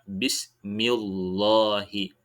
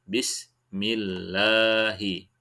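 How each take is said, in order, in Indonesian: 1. L pada Allah dibaca tebal. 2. L pada Allah dibaca tipis. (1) "tidak benar jika dibaca bismillahi" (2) "Yang benar bismillahi"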